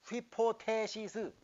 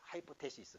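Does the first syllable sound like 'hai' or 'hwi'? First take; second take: hwi; hai. First: The first syllable is pronounced 'hwi'. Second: The first syllable is pronounced 'hai'. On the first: This is the Greek pronunciation. "히라보로는" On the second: This is the English pronunciation. "영어로는 발음이 바뀌어"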